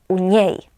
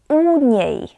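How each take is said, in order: First: The stress falls on the second word. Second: The stress falls on the first word. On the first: The speaker calls it wrong. "nie u niej" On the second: The speaker calls it right. "akcent pada na przyimek"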